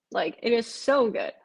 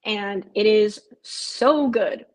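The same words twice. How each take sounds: First: Said in the usual way. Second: Slow down and lean on "so good" in "and it is so good."; slow emphatic gush. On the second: Real, not acted. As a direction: stretch out "and it is so good." slowly, leaning hard on "so". Gushing about a new show.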